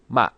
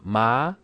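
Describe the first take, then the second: First: The word ends abruptly with a glottal stop. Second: The pitch rises like the Mandarin second tone. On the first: It means rice seedling. "it's a glottal stop" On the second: It means cheek. "that's the second tone, same tone"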